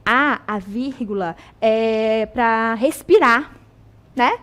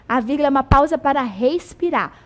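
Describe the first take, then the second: First: Slow, drawn-out mock of the old classroom rule; mock school saying. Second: Said in the usual way. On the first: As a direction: parrot the way teachers say it, slowly. (imitação lenta e debochada da regra escolar) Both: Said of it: "fala-se o quê?".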